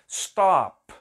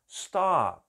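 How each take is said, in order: First: The final p is released with a puff. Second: The final p is held without release. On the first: "Então eu não estou fazendo stop" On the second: "E fecho a boca"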